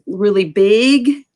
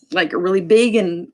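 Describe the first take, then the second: First: "really big" stretched slow and louder; "big" said slowly and pushed out; emphasized. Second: Said in the usual way. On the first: Shown as a demonstration. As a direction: lean hard on "big", drawn out. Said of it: "emphasize a sign and make it really". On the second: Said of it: "emphasize a sign".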